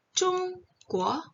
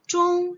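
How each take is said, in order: First: Chong high, then Kuo rising upward; second tone Kuo. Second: Chong held high, level and loud; first tone Chong. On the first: Showing the class tone two, rising Kuo. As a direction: let Kuo climb like a question. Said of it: "nada dua". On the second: Showing the class tone one, high level Chong. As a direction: sing Chong on one high flat pitch. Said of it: "nada satu". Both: Shown as a demonstration.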